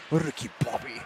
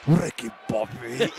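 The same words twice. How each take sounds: First: Soft, lower laughing French Ricky Bobby; mock French accent. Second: Slow, lower mock French accent on Ricky Bobby. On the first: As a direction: echo the French racer quietly through a laugh. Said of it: "very French". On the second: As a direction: imitate the French racer drawling Ricky Bobby. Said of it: "always says it very, very French".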